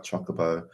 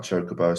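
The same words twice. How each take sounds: First: Chocobo with a first syllable like "chock"; short-O Chocobo. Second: Chocobo with a first syllable like "choke"; long-O Chocobo. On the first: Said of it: "sometimes I'm like Chocobo". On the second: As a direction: say CHOH-kuh-boh for Chocobo. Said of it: "Sometimes I'm like Chocobo". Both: Shown as a demonstration.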